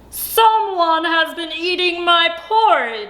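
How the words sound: It is said in a great big voice.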